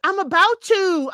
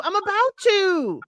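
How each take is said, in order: First: Higher, louder quick brush-off; imitating an irritated I'm about to; mock snippy retort. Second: Higher and slow, stretching about; a higher, lingering I'm about to; mock dragged-out retort. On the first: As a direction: snap back impatiently in a mocking higher voice. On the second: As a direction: drag it out dismissively, like a sulky reply. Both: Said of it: "Stephanie's like".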